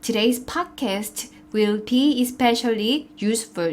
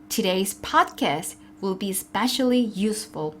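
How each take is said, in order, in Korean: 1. 각 단어를 하나씩 따로 말해요. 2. 단어들이 이어져서 한 덩어리로 말해요. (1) "이렇게 하나씩 이야기하지 않고요" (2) "저는 덩어리째로 이야기를 했어요"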